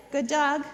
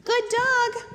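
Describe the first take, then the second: First: Said in the usual way. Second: Excited praise. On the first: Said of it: "calm praise after the sit". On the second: Shown as a demonstration. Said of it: "praise after the sit".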